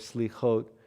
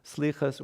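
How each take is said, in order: First: It is said in a non-Ashkenazi pronunciation. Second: It is said in the Ashkenazi pronunciation.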